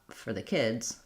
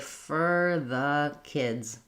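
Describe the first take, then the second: First: The phrase is spoken quickly. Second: The phrase is spoken slowly. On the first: The speaker calls it right. "When I speed it up" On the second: The speaker calls it wrong. "it doesn't sound super normal, because if I were going that slow"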